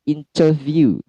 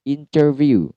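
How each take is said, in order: First: A clear t sound follows the n. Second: The same.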